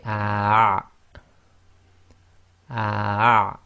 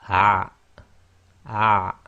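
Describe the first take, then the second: First: Slow loud "ah" squeezed in mid-throat; Arabic ain, long. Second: Short loud "ah" squeezed in mid-throat; short Arabic ain. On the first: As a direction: hold "ah" and block the middle of the throat at the end. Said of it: "block the middle of your throat". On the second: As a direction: clip "ah" short with a tight throat. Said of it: "if we just shorten that". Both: Shown as a demonstration.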